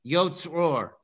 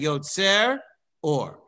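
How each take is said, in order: First: The two words are run together without a break. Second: The two words are kept apart with a break. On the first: The speaker calls it wrong. "It shouldn't sound like" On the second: The speaker calls it right. "You should say ... And you should pause between the word Yotzer"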